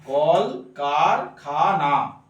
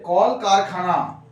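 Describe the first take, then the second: First: "কল কারখানা" very slowly as কল, কার, খা, না; low, drawn-out "কল কারখানা", each syllable apart. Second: Said in the usual way. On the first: Shown as a demonstration. Teacher counting syllables for students, slow and separated. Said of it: "এখানে এক দল". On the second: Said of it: "আর একটা হচ্ছে".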